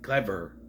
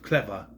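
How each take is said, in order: First: The final R is heavily overstressed. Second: The final R is light and natural. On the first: The speaker calls it wrong. "they emphasize the R too much. Something clever. That's how he says it" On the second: The speaker calls it right. "Instead of clever"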